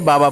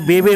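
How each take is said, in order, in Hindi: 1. हर अक्षर 'aa' स्वर के साथ बोला जाता है। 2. हर अक्षर 'ay' स्वर के साथ बोला जाता है। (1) "हम लोग बा बोलते हैं" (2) "बे बे होना चाहिए"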